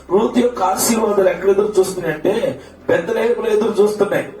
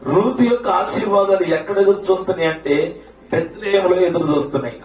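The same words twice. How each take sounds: The two takes are said the same way.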